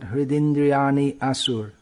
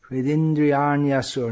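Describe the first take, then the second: First: The words are split with a break between. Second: The words flow together without a break. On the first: The speaker calls it wrong. "not Hridindriyani asur" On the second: The speaker calls it right. "The ya should flow into the next letter"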